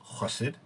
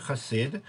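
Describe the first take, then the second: First: Chassid with the stress up front, KHOSS-id; stress on first syllable. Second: Chassid with the stress on its second syllable, kha-SEED; stress on last syllable. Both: Shown as a demonstration. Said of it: "can also be pronounced".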